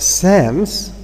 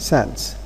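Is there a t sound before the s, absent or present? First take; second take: absent; present. First: No t sound comes between n and s. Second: A t sound comes between n and s. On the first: "instead of saying" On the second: "we try to add uh, some kind of t between n and s"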